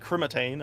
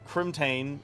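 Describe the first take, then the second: First: The word has an extra vowel in the middle. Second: The word has no extra vowel in the middle. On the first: The speaker calls it wrong. "I added like an extra I or an A somewhere" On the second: The speaker calls it right. "it's pronounced uh, Crimtane"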